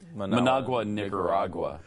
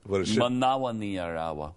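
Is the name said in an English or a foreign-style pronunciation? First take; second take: English; foreign-style. First: The g sounds are pronounced fully, in English style. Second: The g sounds are softened, in a foreign style.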